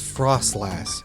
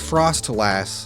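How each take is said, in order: First: It is said as one blended word. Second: It is said as two separate words. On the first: The speaker calls it right. "it's frostlass" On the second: The speaker calls it wrong. "you're not saying frost lass"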